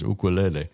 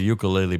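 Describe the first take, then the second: First: It is said with a Hawaiian-style pronunciation. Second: It is said with an anglicized English pronunciation. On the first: This is the original native pronunciation. "the Hawaiian pronunciation is ukulele" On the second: This is how it used to be called. "As we called it a ukulele back then"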